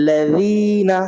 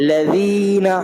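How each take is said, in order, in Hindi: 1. बीच का व्यंजन नरम 'th' ध्वनि है। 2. बीच का व्यंजन नरम 'th' ध्वनि है।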